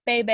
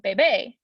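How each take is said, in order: First: "bebe" stressed on the first syllable, BE-be. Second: "bebe" stressed on the last syllable, be-BE. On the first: Teacher contrasting two Spanish words, "bebe" stressed up front. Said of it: "accent on your wrong syllable". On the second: Teacher showing the word for baby, "bebe" stressed at the end. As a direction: land on the final BE in "bebe". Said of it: "un bebé, a baby". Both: Shown as a demonstration.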